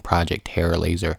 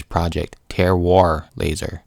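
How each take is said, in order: First: Said in the usual way. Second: "Terroir" said as tair-WAHR; corrected pronunciation. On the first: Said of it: "It's not named". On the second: Acted. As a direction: stretch "Terroir" into two clear syllables, ending in -wahr. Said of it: "Terroir as in earth soil".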